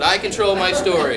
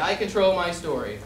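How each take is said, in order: First: It is said with more power and energy. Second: It is said plainly with ordinary energy.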